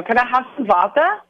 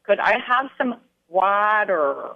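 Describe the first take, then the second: First: Imitating a German saying vodka for water; Could I have some vodka, with vodka said as a German accent's water; a light German-accented ask for vodka. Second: Imitating Schenker saying water in a Minnesota accent, with a long flat ah and a hard r; water drawn out carefully in a Minnesota accent; a German learner copying a Minnesota accent. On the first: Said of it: "how Schenker's accent was". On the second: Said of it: "delivering the word water in a full-on Minnesota accent".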